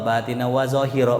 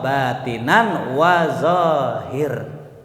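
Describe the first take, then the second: First: The last word ends with an added vowel sound. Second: The last word ends on a consonant sound. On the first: It follows the written Arabic text. The speaker calls it wrong. "enggak enak" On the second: It follows the rhetorical beauty of the language. The speaker calls it right. "ulama ... mengatakan"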